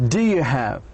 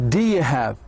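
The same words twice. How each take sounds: No difference in how they are said.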